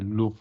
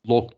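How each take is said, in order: First: The vowel is a short oo, as in book. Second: The vowel is an open o, as in lock. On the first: The speaker calls it right. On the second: The speaker calls it wrong. "lock demeyeceksin"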